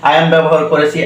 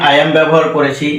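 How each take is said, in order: The two takes are said the same way.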